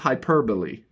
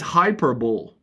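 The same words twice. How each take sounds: First: The word ends with a pronounced final syllable. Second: The word ends without a final vowel syllable. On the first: The speaker calls it right. "And it's, of course, hyperbole" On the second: The speaker calls it wrong. "I pronounced it as hyperbole"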